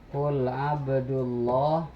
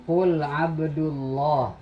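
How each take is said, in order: No difference in how they are said.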